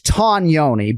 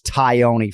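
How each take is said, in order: First: The surname is pronounced the Italian way. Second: The surname is pronounced the anglicized way. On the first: "the correct Italian pronunciation" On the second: "ubiquitously referred to as Chris Tioni"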